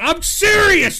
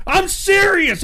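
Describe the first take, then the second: First: High, loud insistence; emphatic. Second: High, loud insistence again; emphatic. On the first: Streamer insisting to chat he means it, loud and high. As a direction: insist on it, pitched way up. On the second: Streamer repeating to chat he is serious, loud and high. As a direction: press the point, voice up high. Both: Real, not acted.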